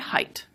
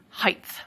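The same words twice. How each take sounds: First: The word ends with a t sound. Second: The word ends with a th sound. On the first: "I say height" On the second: "many speakers now say height"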